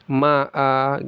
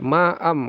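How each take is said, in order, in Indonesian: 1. Kata itu berakhir dengan vokal panjang. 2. Kata itu berakhir dengan konsonan sengau. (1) "Berhenti di sini dibaca ma'a ya" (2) "di sini jadi tanwinnya hidup lagi"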